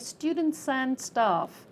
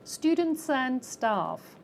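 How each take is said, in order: First: The final consonants link onto the next word. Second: The same.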